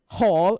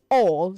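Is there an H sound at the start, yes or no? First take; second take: yes; no. First: An H sound is added at the start. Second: It starts with a vowel, no H. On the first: The speaker calls it wrong. "don't say hall" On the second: The speaker calls it right. "say all"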